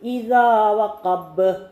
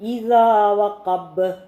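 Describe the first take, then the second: Both takes have the same delivery.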